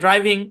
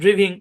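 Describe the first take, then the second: First: The first vowel is a long 'eye' sound. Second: The first vowel is a short 'ih' sound. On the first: The speaker calls it right. "সঠিক উচ্চারণ" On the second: The speaker calls it wrong. "ভুল উচ্চারণ"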